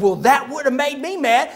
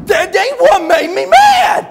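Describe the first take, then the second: First: Said in the usual way. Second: Slow, high, furious mock bellow; hammed-up tongue-tied roar; Buddy. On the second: Buddy corrects the preacher, bellowing in worked-up rage. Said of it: "when he gets real worked up, he can't talk very good".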